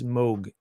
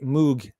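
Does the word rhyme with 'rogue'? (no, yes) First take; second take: yes; no. First: The vowel rhymes with rogue. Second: The vowel does not rhyme with rogue. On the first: This is the correct pronunciation. The speaker calls it right. "the correct pronunciation is Moog, like in Rogue" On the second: This is how UK-based people say it. The speaker calls it wrong. "you U K-based guys say Moog"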